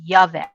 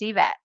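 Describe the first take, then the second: First: The name begins with a "yuh" sound. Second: The name begins with an "ee" sound. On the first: The speaker calls it wrong. "a lot of people will say Yavet" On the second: The speaker calls it right. "just pretend it starts with an E"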